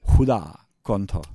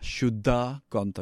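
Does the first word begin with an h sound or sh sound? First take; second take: h; sh. First: The first word begins with an h sound. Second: The first word begins with an sh sound. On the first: "They don't say sha, they say ha" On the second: "other places in India, they would pronounce it Shuddha"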